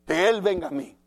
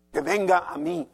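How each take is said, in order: First: Proud demand, pushed harder on él; louder haughty demand. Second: A proud, lightly raised demand; haughty demand. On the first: Preacher mocking an arrogant heart, louder haughty demand. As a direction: stamp your pride on the word él. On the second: Preacher voicing a proud unforgiving heart, haughty demand. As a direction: insist that others come to you, mock arrogance. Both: Retold or imitated. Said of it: "Qué mala actitud".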